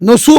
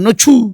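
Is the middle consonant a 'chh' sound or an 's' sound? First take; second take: s; chh. First: The middle consonant is a plain s sound. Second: The middle consonant is an aspirated chh sound. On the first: "নসু বলতে পারবে" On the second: "ছ"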